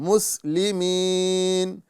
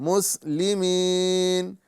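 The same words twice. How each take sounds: Both takes have the same delivery.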